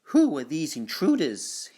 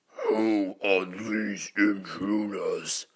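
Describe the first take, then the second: First: It is said in a normal voice. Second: It is said in a very deep voice.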